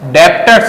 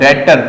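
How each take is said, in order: First: A b sound is heard in the word. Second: No b sound is heard in the word. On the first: The speaker calls it wrong. "डेप्टर्स मत बोलना" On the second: The speaker calls it right. "बी silent है"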